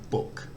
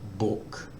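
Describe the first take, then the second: First: The pitch stays level in the middle range. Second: The pitch stays level in a low range. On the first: It is just normal speech. "with a mid tone, it's just normal speech" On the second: The speaker might be angry. "With a low tone, it might be because you're angry, so you need to go down a, a register"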